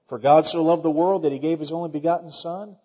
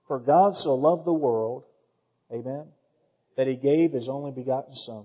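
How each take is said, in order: First: The verse is said quickly, without pausing. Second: The verse is said slowly, with a pause.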